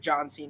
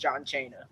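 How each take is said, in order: First: The name is said in its usual form. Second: The name is said in a distorted form.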